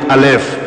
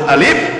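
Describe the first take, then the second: First: The letter name is said in the Hebrew way. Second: The letter name is said in the Arabic way. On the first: "orang Yahudi menyebut alef" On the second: This is how Muslims name the letter. "Kita orang Islam menyebut alif"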